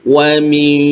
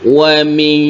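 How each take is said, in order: Both takes have the same delivery.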